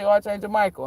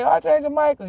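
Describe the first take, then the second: First: Said in the usual way. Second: Rufend, hoch und laut: "Archangel Michael"; calling out loud. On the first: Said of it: "you say". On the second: Retold or imitated. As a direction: call "Archangel Michael" out across the yard. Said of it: "and I say".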